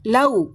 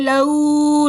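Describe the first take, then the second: First: The vowel is short, about two beats. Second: The vowel is drawn out long. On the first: The speaker calls it right. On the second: The speaker calls it wrong.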